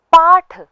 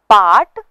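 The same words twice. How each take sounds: First: पाठ high and loud, breath on ठ; aspirated retroflex th. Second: पाठ loud, ending as plain ट; unaspirated retroflex t. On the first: Teacher contrasts ट and ठ, पाठ with final aspiration. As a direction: end पाठ with a puff. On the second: Teacher contrasts ट and ठ, पाठ without final aspiration. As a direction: end पाठ without any puff, like पाट. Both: Shown as a demonstration. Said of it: "ट और ठ के उच्चारण को".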